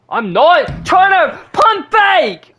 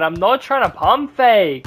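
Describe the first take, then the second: First: Slow, very high, loud yell; raging shout of disbelief; furious shout. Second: Slower grumbled repeat at normal pitch; fed-up muttered protest; annoyed complaint. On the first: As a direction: bellow it at the game, stretching every word. Raging at the controller. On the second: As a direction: say it again, irritated but not shouting. Repeats complaint less loudly. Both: Real, not acted.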